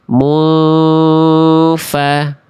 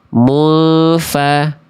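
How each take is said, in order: First: The nasal hum is held for two beats. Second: The nasal hum is cut short and rushed. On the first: The speaker calls it right. "semestinya mufa" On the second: The speaker calls it wrong. "tapi tergesa-gesa"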